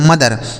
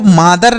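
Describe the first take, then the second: First: The first vowel is short, like 'muh'. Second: The first vowel is long, like 'maa'. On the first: The speaker calls it right. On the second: The speaker calls it wrong. "इसको मादर नहीं पढ़ते"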